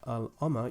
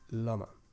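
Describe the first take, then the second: First: The article and noun are pronounced as separate words. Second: The article sound joins directly onto the noun. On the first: The speaker calls it wrong. "Instead instead of saying al ama" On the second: The speaker calls it right. "you say lama"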